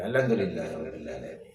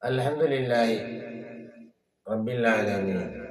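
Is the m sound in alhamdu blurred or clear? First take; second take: blurred; clear. First: It is rushed and the m sound is blurred. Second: The m sound is said clearly with closed lips. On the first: The speaker calls it wrong. "വേഗം നിസ്കരിക്കാൻ വേണ്ടി ഇമാം" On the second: The speaker calls it right. "ആ മീം പറഞ്ഞു വെളിവാകനെ വേണം"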